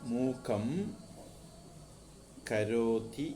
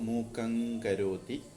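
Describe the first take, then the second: First: The first word ends in an m sound. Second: The first word ends in an ng sound.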